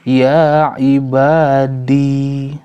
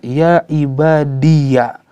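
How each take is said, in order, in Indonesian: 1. Kata itu berakhir dengan bunyi 'i' panjang. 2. Kata itu berakhir dengan suku kata 'ya' penuh. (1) "ketika berhenti"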